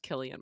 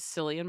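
First: The name begins with a hard K sound. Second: The name begins with a soft S sound. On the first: The speaker calls it right. "That is pronounced Killian Murphy" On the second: The speaker calls it wrong. "I referred to the star of Oppenheimer as Cillian Murphy"

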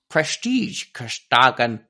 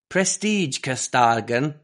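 First: It is said with a put-on foreign accent. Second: It is said without a deliberate put-on accent. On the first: "I'll try and do it in the accent" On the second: "I'm trying not to do it with an accent"

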